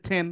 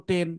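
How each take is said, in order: First: টেন with an aspirated t, like ঠেন; টেন starting on ঠ; correct pronunciation. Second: টেন with a plain unaspirated t; টেন starting on hard ট; wrong pronunciation. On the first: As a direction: puff of air after the t in টেন. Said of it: "এটা সঠিক উচ্চারণ হচ্ছে". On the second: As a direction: say টেন with no puff of air after the t. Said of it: "তাহলে তুমি ভুল পড়ছো". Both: Shown as a demonstration.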